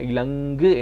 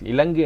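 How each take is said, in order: First: The middle consonant is held long. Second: The middle consonant is held short. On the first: The speaker calls it right. "இலங்கு என்று சொல்லி நாங்கள் வாசிப்போம்" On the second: The speaker calls it wrong. "இலங்கு என்று வாசிக்காம"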